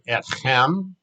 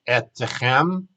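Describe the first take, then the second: First: No vowel is heard after the t sound. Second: A short vowel is heard after the t sound. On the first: The speaker calls it right. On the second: The speaker calls it wrong.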